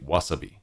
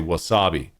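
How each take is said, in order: First: All syllables get equal length and weight. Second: One syllable is stressed more than the others. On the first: "in Japan they'll say wasabi, because they're trying to make sure everything is equally timed out" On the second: "North Americans will say wasabi"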